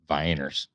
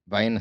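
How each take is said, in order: First: The word ends in an 'ers' sound. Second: The word ends in a plain 'uh' vowel. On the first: This is how an older relative said it. "my granddad pronounced it Vienners" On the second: This is the usual way to say it. "so you pronounce it Vienna"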